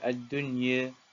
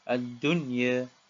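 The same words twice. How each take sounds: No difference in how they are said.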